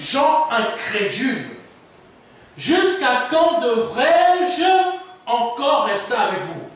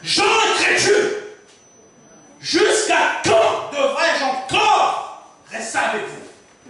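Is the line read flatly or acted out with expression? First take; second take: flatly; expressively. First: It is read out flatly, like plain reading. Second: It is acted out in Jesus's expressive tone.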